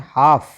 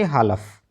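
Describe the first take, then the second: First: The L sound is left out. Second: The L sound is pronounced. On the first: The speaker calls it right. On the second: The speaker calls it wrong.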